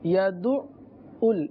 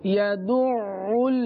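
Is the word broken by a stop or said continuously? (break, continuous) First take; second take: break; continuous. First: The sound breaks off briefly in the middle. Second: The sound continues without a break throughout. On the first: The speaker calls it wrong. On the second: The speaker calls it right.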